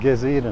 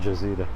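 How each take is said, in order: First: It is said with an Egyptian accent. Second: It is said with a non-Egyptian accent. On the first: "in Egypt, I think they pronounce it"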